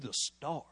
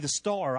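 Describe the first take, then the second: First: It is said in an ominous, warning tone. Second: It is said in a plain, positive tone. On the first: Being the star will be a bad thing. "the way I put my intonation on the last star, he knows this isn't good" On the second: Being the star is a good thing. "Star is supposed to be good"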